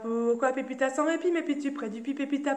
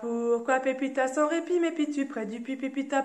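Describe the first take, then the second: First: It is said at a faster pace. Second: It is said at a slow pace.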